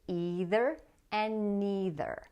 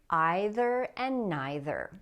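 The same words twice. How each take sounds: First: It uses the common North American pronunciation. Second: It uses the more British pronunciation. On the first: "Most people in North America say" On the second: "which is the more British pronunciation"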